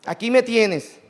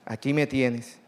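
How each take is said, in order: First: Higher, louder aquí me tienes; the preacher proclaiming Christ's offer aloud; raised preaching voice. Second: A hint of Jesus speaking gently; tender plain voicing. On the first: Acted. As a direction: proclaim it, stress on me. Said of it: "tan grande, misericordiosa". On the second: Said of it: "Mira qué lindo".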